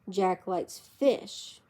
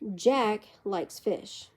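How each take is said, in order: First: The stress falls on the word fish. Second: The stress falls on the word Jack. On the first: He does not like another kind of food. "He doesn't like meat" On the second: Another person does not like fish. "John doesn't"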